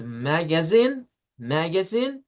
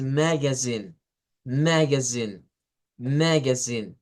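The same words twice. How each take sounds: First: "magazine" as maga-ZINE, pitch rising at the end; stress on last syllable. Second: "magazine" as MAG-azine, slow, falling at the end; stress on first syllable. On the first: Teacher contrasts two intonations, first one, "magazine" with rising final stress. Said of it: "La primera es". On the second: Teacher contrasts two intonations, second one, "magazine" with falling first-syllable stress. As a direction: press "mag" in "magazine" and let the ending fall. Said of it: "y la segunda es". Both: Shown as a demonstration.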